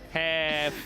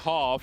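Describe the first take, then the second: First: It is said in an American accent. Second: It is said in a non-American accent. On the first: The listener understood it. "Is that American accent right there?" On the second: The listener misheard it as another word. "If I say half, he's like bald"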